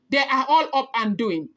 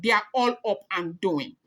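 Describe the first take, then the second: First: "all" pushed up and leaned on, whole line firmer; stress on all. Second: Said in the usual way. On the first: Shown as a demonstration. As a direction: repeat it with weight on "all".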